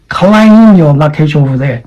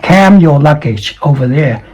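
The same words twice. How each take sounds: First: Careful long vowel in CLAIM; correct claim. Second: CAM said for "claim", no L; short flat A in CAM; mispronounced claim. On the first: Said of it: "Claim is the right pronunciation". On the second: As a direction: say CAM where "claim" belongs. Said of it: "this is not cam". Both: Shown as a demonstration.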